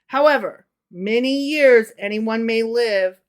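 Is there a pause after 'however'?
yes. There is a pause after 'however'.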